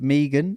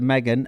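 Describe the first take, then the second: First: The name is said the Australian way. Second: The name is said the speaker's usual way. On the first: This is how the Australian producer says it. "she says Megan" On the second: This is how the speaker normally says it. "instead of Megan"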